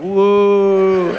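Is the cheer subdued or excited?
subdued. The cheer sounds subdued and flat.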